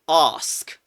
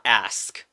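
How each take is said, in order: First: It is said in a British accent. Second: It is said in a non-British accent. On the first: The speaker calls it right. "British accent required. You say ask" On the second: The speaker calls it wrong. "So not ask"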